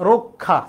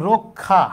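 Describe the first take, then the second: The two takes are said the same way.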